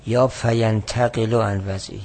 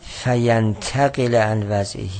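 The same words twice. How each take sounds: First: فینتقل read as fayantaqilu with a final u; slow reading of فینتقل ending fayantaqilu; alternative reading. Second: فینتقل read slowly, ending on fayantaqila; slow loud reading of فینتقل as fayantaqila; first reading. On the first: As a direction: offer the second vowelling of فینتقل, ending in u. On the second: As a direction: spell out فینتقل with a final a vowel, slowly. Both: Shown as a demonstration.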